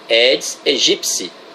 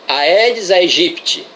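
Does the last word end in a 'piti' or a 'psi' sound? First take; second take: psi; piti. First: The last word ends with a 'psi' sound. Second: The last word ends with a 'piti' sound. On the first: The speaker calls it right. "O piti é pronunciado psi" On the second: The speaker calls it wrong. "Totalmente errada a pronúncia"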